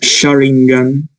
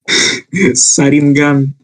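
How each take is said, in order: First: The name begins with a 'sh' sound. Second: The name begins with an 's' sound.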